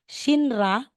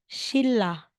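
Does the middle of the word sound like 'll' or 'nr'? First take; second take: nr; ll. First: The middle is said as n followed by r. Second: The middle is said as a double l. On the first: The speaker calls it wrong. "instead na sabi, sasabihin mong Shinra" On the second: The speaker calls it right. "magiging Shilla"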